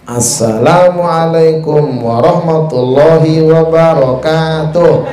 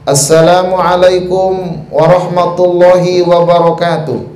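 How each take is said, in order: First: It is said like a children's Quran teacher. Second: It is said like a bold, dignified preacher.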